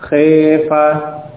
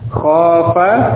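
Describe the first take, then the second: First: The first vowel is tilted toward e. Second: The first vowel is an open a.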